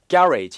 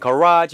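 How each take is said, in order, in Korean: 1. 영국식 발음입니다. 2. 미국식 발음입니다. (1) "영국 발음일 때는 garage 이렇게도 액성이 나고" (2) "미국 발음일 때는"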